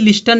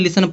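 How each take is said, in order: First: The t sound is pronounced in the middle. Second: The t sound is silent in the middle. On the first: The speaker calls it wrong. "अब इसको कोई लिस्टन नहीं पढ़ता" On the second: The speaker calls it right. "सभी लोग इसको लिसन पढ़ेंगे ... टी क्या है? साइलेंट है"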